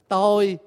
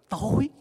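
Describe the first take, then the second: First: The word is said with a level tone. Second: The word is said with a rising tone. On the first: It means the self. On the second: It means dark.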